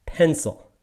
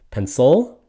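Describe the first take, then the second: First: "pencil" slow, as PEN-cil with a falling end; stress on PEN. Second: "pencil" as pen-CIL, rising at the end; wrong stress on CIL. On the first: Teacher giving the English pronunciation, PEN-cil. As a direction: say "pencil" slowly, first syllable stressed. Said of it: "It is a pencil". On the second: Teacher questioning a non-English pronunciation, pen-CIL. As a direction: push up the second syllable of "pencil". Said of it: "what language are you speaking when you say". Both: Shown as a demonstration.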